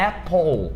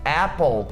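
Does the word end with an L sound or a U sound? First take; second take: L; L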